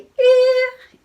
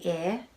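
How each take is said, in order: First: It is said in a very high-pitched voice. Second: It is said in an ordinary speaking voice.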